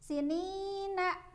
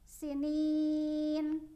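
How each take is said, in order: First: The word ends with an added a vowel. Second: The word ends on a final n. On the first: The reciter continues into the next verse. "Kalau dibaca wasol" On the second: The reciter stops at the end of the verse. "Kalau dibaca wakof"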